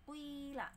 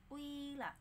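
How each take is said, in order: No difference in how they are said.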